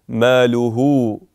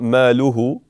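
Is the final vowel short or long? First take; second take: long; short. First: The final vowel is held long. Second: The final vowel is cut short. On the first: The speaker calls it right. "So prolong it for two harakat" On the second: The speaker calls it wrong. "It's not"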